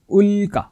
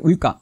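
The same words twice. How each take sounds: First: The first syllable is stressed. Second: The first syllable is not stressed. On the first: The speaker calls it right. "याचा आघात अगोदरच्या अक्षरावर घ्यायचा आहे" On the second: The speaker calls it wrong. "असं नाही"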